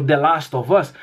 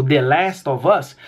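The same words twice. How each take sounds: First: "The Last of Us" with "Last" as "lahst"; alternative pronunciation. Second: "The Last of Us" with "Last" as "lest"; familiar pronunciation. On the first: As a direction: open the vowel of "Last" to a British ah. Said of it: "alguém pronunciando". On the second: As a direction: give "Last" a short, American-style vowel. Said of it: "sendo pronunciada como". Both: Shown as a demonstration.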